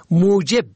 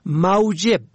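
First: موجب said "mujeb"; u-sound in first syllable of موجب; zamma on first. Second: موجب said "mawjeb"; fatha on first. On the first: Teacher shows موجب for "cause", pronounced mujeb. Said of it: "به ضم اول". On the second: Teacher shows موجب for "salary", pronounced mawjeb. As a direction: aw diphthong in first syllable of موجب. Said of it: "به فتح اول". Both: Shown as a demonstration.

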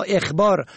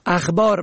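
First: اخبار said "ekhbar"; short e starting اخبار; kasra on first. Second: اخبار said "akhbar"; fatha on first. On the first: Teacher shows اخبار for "informing", pronounced ekhbar. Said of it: "به کسر اول". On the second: Teacher shows اخبار for "news", pronounced akhbar. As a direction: open a starting اخبار. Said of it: "به فتح اول". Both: Shown as a demonstration.

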